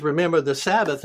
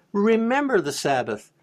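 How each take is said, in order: First: Said in the usual way. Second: Remember lifted high and punched; stress on Remember. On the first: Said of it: "God says". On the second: Shown as a demonstration. Preacher correcting the congregation, stressing Remember. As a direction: lean hard into Remember. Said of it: "No, he says".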